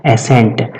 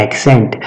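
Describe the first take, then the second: First: "एसेंट" with only an s in the middle; clear word demonstration. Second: "एक्सेंट" with k before the s; clear word demonstration. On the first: Teacher answering own question for class, "एसेंट" said without k. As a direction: pronounce "एसेंट" as e-SENT, no k sound. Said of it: "इस, ये क्या है". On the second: Teacher contrasting it with assent, "एक्सेंट" said with k-s. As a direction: pronounce "एक्सेंट" as ek-SENT, sounding the k. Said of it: "एक्सेंट का मतलब होता है उच्चारण". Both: Shown as a demonstration.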